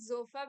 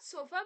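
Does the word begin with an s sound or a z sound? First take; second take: z sound; s sound. First: The word begins with a buzzing z sound. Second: The word begins with a hissing s sound. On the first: The speaker calls it right. "we pronounce the S as z" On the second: The speaker calls it wrong. "not sofa"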